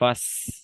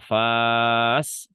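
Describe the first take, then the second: First: The vowel is short and clipped. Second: The vowel is held long. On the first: The speaker calls it right. "yang dibaca langsung fas" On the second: The speaker calls it wrong. "tidak dibaca fas, enggak gitu"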